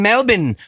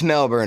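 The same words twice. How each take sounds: First: It is said in an Australian accent. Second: It is said in an American accent. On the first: Someone else is correcting the speaker. "If an Australian person ever looks me dead in the eye and says" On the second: The speaker insists on their own pronunciation. "There's a fucking R in there"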